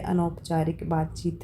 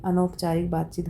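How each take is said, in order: First: Said in the usual way. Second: Whispered repeat. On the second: Shown as a demonstration. Teacher repeating the term to students, whispered. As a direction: say अनौपचारिक बातचीत again in a breathy whisper, no voice.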